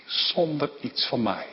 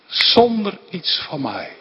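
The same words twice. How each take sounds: First: Zacht en ingetogen, bijna voor zichzelf; soft first take. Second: "Zonder" pressed firmly, fuller voice; emphatic repeat. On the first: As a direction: say it quietly, inward. Repeats phrase, first softly. (zacht, ingetogen uitgesproken) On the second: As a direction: say it again with conviction, leaning on "Zonder". Repeats phrase, second emphatic. (nadruk op "Zonder", voller en stelliger herhaald) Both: Real, not acted.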